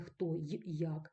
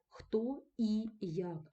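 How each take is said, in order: First: The conjunction is a short glide 'y'. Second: The conjunction is a full syllable vowel 'i'. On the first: The speaker calls it wrong. "а не" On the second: The speaker calls it right. "ми вибираємо тільки і, тому що нам важко вимовити їх два і підряд"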